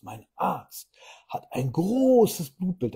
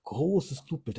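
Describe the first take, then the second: First: "großes" drawn out slowly, higher and louder, proudly; proud stress on großes. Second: Said in the usual way. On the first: Retold or imitated. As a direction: imitate a proud client punching "großes" in slow, high, loud words. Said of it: "dieses Wort groß auch noch richtig betont". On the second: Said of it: "Da wird dieses Wort groß auch noch richtig betont".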